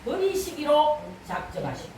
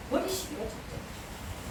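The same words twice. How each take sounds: First: Said in the usual way. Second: Very soft, whispered echo; hushed repeat. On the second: Real, not acted. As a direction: drop to a whisper for gravity. Same phrase repeated, hushed. (속삭이듯 낮춘 목소리)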